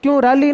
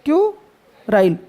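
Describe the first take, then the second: First: क्यूराली said with a long ली ending, the way it should not be said; mock the mistake क्यूराली; wrong pronunciation. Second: क्यूराइल slow, ending in a clear राइल; correct pronunciation. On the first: (गलत उच्चारण क्यूराली, आख़िर में लंबा ली) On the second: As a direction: model the right form क्यूराइल slowly. (सही उच्चारण क्यूराइल, धीरे और साफ़ राइल) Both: Shown as a demonstration. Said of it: "क्यूराली नहीं".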